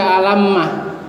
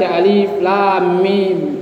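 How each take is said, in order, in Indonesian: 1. Dibaca menyatu menjadi satu kata pendek. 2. Tiga nama huruf yang terpisah diucapkan. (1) "Bukan dibaca" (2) "Kenapa dibaca"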